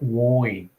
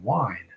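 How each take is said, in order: First: The vowel has a broad, relaxed Australian sound. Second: The vowel has a careful, standard sound. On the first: The speaker is relaxed and not minding elocution. "when I relax, I say things like wine" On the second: The speaker is using proper elocution. "rather than wine"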